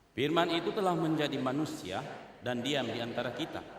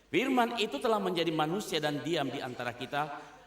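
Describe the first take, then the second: The two takes are said the same way.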